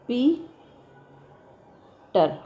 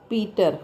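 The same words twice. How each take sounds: First: Peter very slow, long gap between पी and टर; syllables far apart. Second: Said in the usual way. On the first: Shown as a demonstration. Teacher showing how it divides, Peter broken widely in two. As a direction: stretch पी, pause, then drop on टर. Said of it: "कैसे?". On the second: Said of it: "और देखो".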